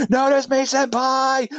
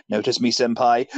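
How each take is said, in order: First: High, slow, drawn-out begging; hammed-up fanboy pleading, pitched way up; mock simping plea. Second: Said in the usual way. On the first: Mock simping Batman, repeated pleading.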